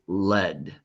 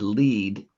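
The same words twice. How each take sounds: First: The word is said with a short vowel. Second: The word is said with a long vowel. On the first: It is a kind of metal. "they want us to use the short vowel" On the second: It means to guide someone. "You said lead, and that is correct"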